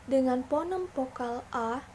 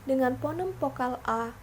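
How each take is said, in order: Both takes have the same delivery.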